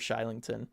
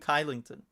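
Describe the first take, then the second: First: The name begins with a sh sound. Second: The name begins with a k sound. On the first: The speaker calls it right. "pronounced it the correct way" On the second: The speaker calls it wrong. "many people were calling him Kylington"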